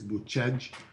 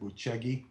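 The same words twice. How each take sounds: First: It is said with a Romanian pronunciation. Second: It is said with an American pronunciation. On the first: "the way that Romanians say it" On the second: "Americans might pronounce it"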